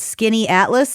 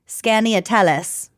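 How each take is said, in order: First: The name sounds like the words 'Skinny Atlas'. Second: The name is sounded out closer to its spelling. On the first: This is the local pronunciation. "this is how you pronounce it" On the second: This is a guess from the spelling. "I would have guessed"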